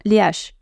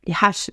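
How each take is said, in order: First: Said in the usual way. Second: "haches" with an exaggerated breathed H; playful breathy H on "haches"; aspirated H. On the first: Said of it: "Les haches, j'allais dire". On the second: Shown as a demonstration. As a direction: puff out the H at the start of "haches". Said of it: "tu nous fais les ha".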